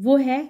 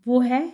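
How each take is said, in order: No difference in how they are said.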